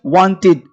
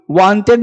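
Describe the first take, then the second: First: वांटेड said with a light i, like wantid; the right way, वांटेड ending in -tid; right wanted. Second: वांटेड said with a full e, like wanted-ed; the wrong way, वांटेड with a clear e. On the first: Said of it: "इसे वांटेड पढ़ते हैं". (वांटेड को हल्की ई के साथ, सही तरीका) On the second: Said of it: "वांटेड नहीं". (वांटेड को पूरी ए के साथ, गलत तरीका) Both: Shown as a demonstration.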